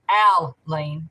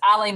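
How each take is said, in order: First: The first syllable sounds like al. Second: The first syllable sounds like eye. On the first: "like A L L Y N E" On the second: "like I L E A N"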